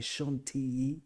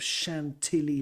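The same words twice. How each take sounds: First: The double L is sounded as a Y. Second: The double L is sounded as an L. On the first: The speaker calls it right. "You sort of pronounce the double L as a Y" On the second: The speaker calls it wrong. "You might have heard of Chantilly Lace"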